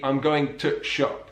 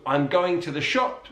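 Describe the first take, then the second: First: "going to shop" with THE squashed to a tiny stop; slow Yorkshire demo, "to shop" with the article swallowed; Yorkshire squashed words. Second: Said in the usual way. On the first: Shown as a demonstration. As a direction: drop "the" into a glottal catch before "shop". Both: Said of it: "squashing and omitting of certain words and sounds".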